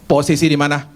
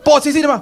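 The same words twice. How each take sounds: First: Laughing quote. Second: Higher and louder, curt demand in "Posisi"; bossy demand. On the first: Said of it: "Kalau telepon gini". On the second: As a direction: bark "Posisi di mana?" like a stern order. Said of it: "dengan nadanya gini nih". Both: Retold or imitated.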